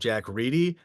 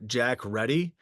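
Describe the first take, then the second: First: The surname sounds like the word 'reedy'. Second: The surname sounds like the word 'ready'. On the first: The speaker calls it right. "the correct pronunciation of" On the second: The speaker calls it wrong. "I called him uh"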